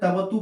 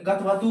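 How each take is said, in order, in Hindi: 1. यह सीधे t ध्वनि से शुरू होता है। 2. यह k ध्वनि से शुरू होता है, t से पहले। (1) "तवतु पढ़ना होता है" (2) "कथवतु पढ़ते होंगे"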